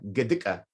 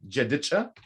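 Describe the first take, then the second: First: It starts with g and ends with ka. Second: It starts with j and ends with cha. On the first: "So we can make this ja into a g" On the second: "So I'm saying this right now"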